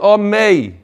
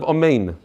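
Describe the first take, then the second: First: The word ends on a vowel, without n. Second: The word ends with a clear n sound. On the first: The speaker calls it wrong. "you you drop the nun at the end" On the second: The speaker calls it right. "instead of amen"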